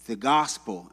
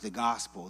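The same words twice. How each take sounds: First: Said in the usual way. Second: "gospel" said softer and dismissive, in air quotes; ironic small gospel. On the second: Shown as a demonstration. Pastor mocking the watered-down gospel, ironic. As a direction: drop "the gospel" like a lowercase label. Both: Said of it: "lowercase with quotations and italicized".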